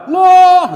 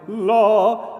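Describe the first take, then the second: First: It is said loudly. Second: It is said softly.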